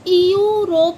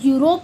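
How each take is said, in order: First: The word begins with a separate e vowel. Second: The word begins with a plain yoo sound. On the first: The speaker calls it wrong. "यूरोप नहीं पढ़ते" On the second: The speaker calls it right. "यूरोप बोला जाता है इसको"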